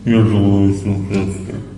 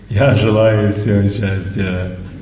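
First: It is said in a gloomy mood. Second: It is said in a cheerful mood.

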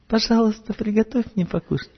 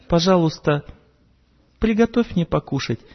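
First: The request is said in a softer, gentler tone. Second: The request is said in a plain, blunt tone.

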